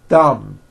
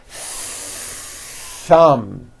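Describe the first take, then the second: First: The th is brief with no audible air friction. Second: The th is held long with audible air friction. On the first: The speaker calls it wrong. "there was never any air friction. That's not good" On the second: The speaker calls it right. "Notice how long I'm holding the th sound"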